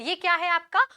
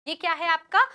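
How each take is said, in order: No difference in how they are said.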